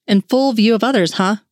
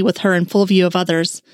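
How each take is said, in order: First: A light, playful tease with "full" lifted and a mild rise on huh; gently needling his partner, "full" leaned on; teasing. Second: Monotone reading. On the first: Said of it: "he teased". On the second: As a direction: lightly read out in an even drone, no emphasis on full. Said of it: "reading monotonously". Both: A narrator's reading.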